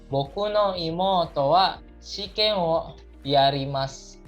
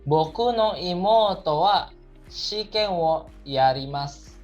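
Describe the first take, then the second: Both takes have the same delivery.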